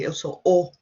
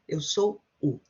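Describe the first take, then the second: First: The final word is a full 'o' vowel. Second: The final word is reduced to a 'u' vowel. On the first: The speaker calls it wrong. "some people say eu sou o, but it sounds very unnatural" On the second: The speaker calls it right. "We tend to just pronounce u"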